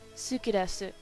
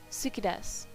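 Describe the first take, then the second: First: The u vowels are fully pronounced. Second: The u vowels are dropped between voiceless consonants.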